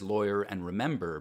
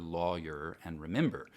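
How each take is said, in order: First: It is said with a general American accent. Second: It is said with a Southern US accent. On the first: "Most of the U S says" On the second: "most of the South and parts of the Midwest strongly favor"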